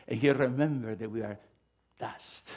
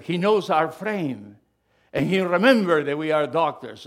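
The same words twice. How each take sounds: First: Said in the usual way. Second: Proclaiming scripture. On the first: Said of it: "No, he said". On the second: Acted. Quoting King David loudly.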